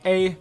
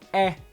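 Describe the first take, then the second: First: The vowel is said as ay. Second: The vowel is said as eh. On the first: "There's no A" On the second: "there's no eh"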